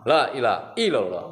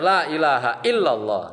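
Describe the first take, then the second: First: The vowel after ilah is dropped and runs on. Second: The vowel after ilah is pronounced, illa stressed. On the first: The exception word is blurred and the meaning changes. The speaker calls it wrong. "la kencang, ... Salah, salah" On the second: The exception word is clear and the meaning is kept. The speaker calls it right.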